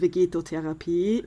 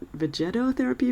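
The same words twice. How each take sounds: First: The word is pronounced the German way. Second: The word is pronounced the English way. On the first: "I assume the German is vegetotherapy" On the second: "The English, I guess, is vegetotherapy"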